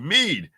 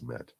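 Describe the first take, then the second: First: The word is said as 'meed'. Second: The word is said as 'med'. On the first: This is how the drink is normally called. The speaker calls it right. "have you a hearty a hearty mug of of mead" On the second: This is how an older relative called the drink. The speaker calls it wrong. "he used to refer to it as med"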